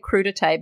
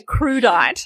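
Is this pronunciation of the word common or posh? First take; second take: posh; common. First: The word is pronounced in a posh, refined way. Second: The word is pronounced in a common, everyday way. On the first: The speaker sees it as food-snob refined. The speaker calls it right. "I say crudité because, you know, I am the food wanker" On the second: The speaker sees it as unrefined. The speaker calls it wrong. "Some people say crudite, but that's common"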